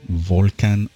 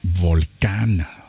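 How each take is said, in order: First: The word is pronounced the English way. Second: The word is pronounced the Spanish way.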